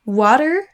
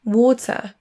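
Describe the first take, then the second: First: WATER with T as D and final R; American WATER, tune rising. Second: Slow WATER with clear T and no R; British WATER ending on a schwa. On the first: Teacher offering the correct option, American WATER. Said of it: "mais bien". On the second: Teacher offering the other correct option, British WATER. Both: Shown as a demonstration.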